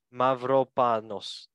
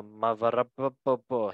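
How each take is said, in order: First: Mavropanos said slowly, syllable by syllable, MAV-ro-PA-nos; careful name. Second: Mavropanos stumbled and garbled into mav-er-ah-pa-pa-po; fumbled name. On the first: Shown as a demonstration. Host retrying the Greek player's name, slow careful attempt. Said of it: "I'm gonna try to say his name actually". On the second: Real, not acted. Host stumbling over a Greek player's name, garbled attempt. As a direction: trip over Mavropanos and give up halfway. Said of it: "I'm not gonna say his last name".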